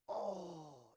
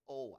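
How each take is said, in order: First: It is said with deep, heartfelt feeling. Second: It is said lightly, without deep feeling.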